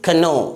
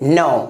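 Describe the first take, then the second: First: A K sound is pronounced before the N. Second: The word starts directly with the N sound. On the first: The speaker calls it wrong. "ना कि कनो" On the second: The speaker calls it right. "क्या पढ़ेंगे इसे, नो"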